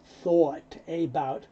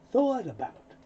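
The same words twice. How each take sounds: First: "thought about" slowly, each word apart; separate careful words. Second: "thought about" run together as "thaw-tabout"; linked T. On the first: Teacher showing what you don't hear, "thought about" unlinked. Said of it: "so you wind up hearing not". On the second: Teacher showing what you hear, "thought about" linked. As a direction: carry the T of "thought" onto "about". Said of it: "The T moves over". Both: Shown as a demonstration.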